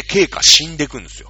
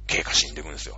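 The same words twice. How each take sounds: First: Loud, emphatic announcement. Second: Softer, lower repeat; quiet echo. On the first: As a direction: punch the news out. Repeats the line for effect. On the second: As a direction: let it sink in quietly. Quiet echo of the previous line. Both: Real, not acted.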